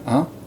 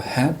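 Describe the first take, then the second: First: It starts with a weak h, more nasal. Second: It starts with a clear h, less nasal. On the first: "it sounds a little more nasalized and with a less clear fricative at the beginning" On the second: "so you don't quite go "hè,""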